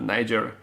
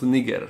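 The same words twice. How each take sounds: First: The word is said with a non-Latin pronunciation. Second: The word is said with a Latin pronunciation. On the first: The speaker calls it wrong. "not Niger" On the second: The speaker calls it right. "If you are using the Latin pronunciation, then it is pronounced Niger"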